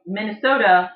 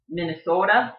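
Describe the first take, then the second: First: Said in the usual way. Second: "Minnesota" with a long, rounded O; Yooper accent. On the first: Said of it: "So Minnesota becomes". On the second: Shown as a demonstration. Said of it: "the Yooper accent rounds out vowels".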